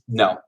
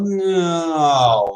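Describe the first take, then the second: First: The no is short, flat and direct. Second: The no is soft, drawn out and hesitant. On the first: The refusal is plain and final. "the Dutch will just no" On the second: The refusal is softened to spare feelings. "They'll be very floofy about how they say no"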